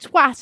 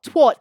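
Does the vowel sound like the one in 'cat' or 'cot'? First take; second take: cat; cot. First: The vowel sounds like the one in 'cat'. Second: The vowel sounds like the one in 'cot'. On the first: This is how British people say it. The speaker calls it right. "Saying twat" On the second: This is how Americans say it. The speaker calls it wrong. "and not twat"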